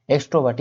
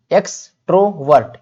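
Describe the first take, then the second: First: Said in the usual way. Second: एक्सट्रोवर्ट split as eks - tro - vert; syllable-by-syllable. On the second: Shown as a demonstration. Teacher shows the class the word, एक्सट्रोवर्ट syllable by syllable. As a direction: say एक्सट्रोवर्ट in distinct, measured beats. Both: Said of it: "pronounce करने में इस तरह से".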